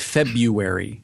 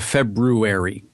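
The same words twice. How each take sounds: First: The first r sound is left out. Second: The first r sound is clearly pronounced. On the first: This is how people commonly say it. "People say February" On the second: This is the form matching the spelling. "instead of February"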